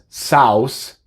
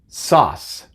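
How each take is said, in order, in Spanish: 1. La U se pronuncia después de la A. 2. La A se dice sola, la U es muda. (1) "no es sauce" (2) "es author y sauce"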